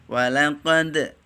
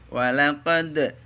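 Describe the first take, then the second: Both takes have the same delivery.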